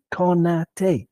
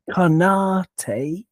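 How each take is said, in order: First: "Konate" in three even beats, ko-na-tay; equal stress. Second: "Konate" as ko-NAH-tay, middle syllable drawn out; stressed middle syllable. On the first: Podcaster showing the correct pronunciation, evenly stressed syllables. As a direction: give each syllable of "Konate" the same weight. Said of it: "'cause it's boom, boom, boom". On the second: Podcaster showing the wrong pronunciation, middle-syllable stress. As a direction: lean hard on NA in "Konate". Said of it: "which is why we don't say". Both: Shown as a demonstration.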